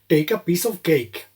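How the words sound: It is said in an Indian English accent.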